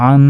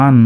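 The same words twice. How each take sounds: First: আন with a held nasal hum on the ন; with ghunna. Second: Said in the usual way. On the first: Shown as a demonstration. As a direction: hum the ন of আন through the nose. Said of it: "এটাকে বলা হয় গুন্না". (নাকে গুন্না করে আন) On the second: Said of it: "আমরা গুন্না করতে পারতাম".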